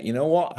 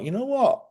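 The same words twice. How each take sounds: First: Said in the usual way. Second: A sudden high-pitched inner voice; higher-pitched inner realization; quoted thought, much higher. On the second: Retold or imitated. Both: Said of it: "How many times has somebody said something you thought".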